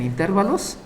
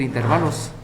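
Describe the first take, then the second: First: "intervalos" with the stress on TER; stressed as intérvalos. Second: "intervalos" with the stress on VA; stressed as interválos. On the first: Teacher quoting how some people say it, stressed as intérvalos. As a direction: say "intervalos" as in-TÉR-va-los. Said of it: "algunos dicen intervalos". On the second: Teacher showing it can also be said so, stressed as interválos. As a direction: say "intervalos" as in-ter-VA-los. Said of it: "también se puede decir intervalos". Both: Shown as a demonstration.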